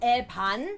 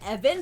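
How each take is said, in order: First: The name is said with Korean pronunciation. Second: The name is said with English pronunciation. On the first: "in Korean it's pronounced Evan" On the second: "we were calling him Evan"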